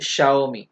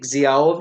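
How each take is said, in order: First: "Xiaomi" begun with sh, SHAO-mi; sh sound for X. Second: "Xiaomi" begun with a z sound, zi-AO-mi; spelling pronunciation. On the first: Teacher gives the correction, "Xiaomi" slowly with a sh sound. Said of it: "this is Xiaomi". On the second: Teacher shows the mistake, "Xiaomi" slowly with a z sound. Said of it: "अब ये Xiaomi नहीं है". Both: Shown as a demonstration.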